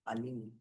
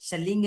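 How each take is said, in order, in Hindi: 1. शब्द की शुरुआत स्वर ध्वनि से होती है। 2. शब्द की शुरुआत व्यंजन ध्वनि से होती है। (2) "शलिंग नहीं पढ़ेंगे इसको"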